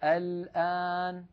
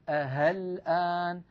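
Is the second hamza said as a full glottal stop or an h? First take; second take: glottal stop; h. First: The hamza is said as a full glottal stop. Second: The hamza is replaced by an h sound. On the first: "أن يحقق همزة الوصل" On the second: "أن يبدلها هاء"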